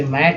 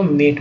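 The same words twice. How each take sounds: First: मैट with the open "ae" of mat; open vowel. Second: मेट with the "ay" of mate; long A vowel. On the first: Teacher contrasts words without and with final e, open vowel मैट. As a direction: say मैट with a wide ऐ. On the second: Teacher contrasts words without and with final e, long vowel मेट. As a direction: say मेट with a tense ए. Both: Shown as a demonstration. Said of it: "ई लग गया तो मेट हो गया".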